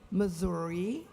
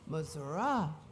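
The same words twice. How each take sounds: First: It is pronounced the French way. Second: It is pronounced the Native American way. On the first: "The French pronunciation"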